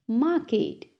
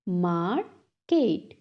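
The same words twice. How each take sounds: First: Said in the usual way. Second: "market" slowly split as mar, ket; syllable by syllable. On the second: Shown as a demonstration. Teacher has class repeat, "market" broken in two. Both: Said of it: "टू syllables में divide".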